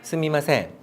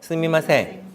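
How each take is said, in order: No difference in how they are said.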